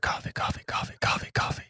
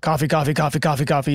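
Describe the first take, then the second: First: It is said quietly and faintly. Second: It is screamed loudly.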